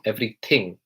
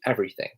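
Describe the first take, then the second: First: The th sound is pronounced heavily. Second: The th sound is pronounced softly. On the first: The speaker calls it wrong. "often mispronounced as everything, everything. So it's kind of like it's a heavily pronounced" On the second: The speaker calls it right. "in the British accent it's quite soft"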